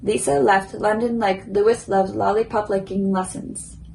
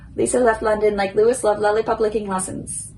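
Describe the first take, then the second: First: The sentence is said at a moderate pace. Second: The sentence is said as fast as possible. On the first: "a little quicker" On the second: "as quick as I can"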